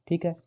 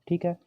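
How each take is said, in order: No difference in how they are said.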